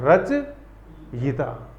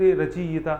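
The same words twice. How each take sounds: First: रचयिता very slow, every syllable separate and clear; correct pronunciation. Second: रचयिता said quickly and run together, as students say it; wrong pronunciation. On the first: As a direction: model रचयिता slowly as the right form. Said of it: "तो बोलना क्या है sir?". (रचयिता बहुत धीरे, सही उच्चारण) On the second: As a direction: say रचयिता in the common careless way. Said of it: "लेकिन वो गलत है". (रचयिता जल्दी, गलत ढंग से) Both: Shown as a demonstration.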